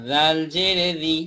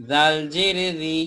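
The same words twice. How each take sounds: The two takes are said the same way.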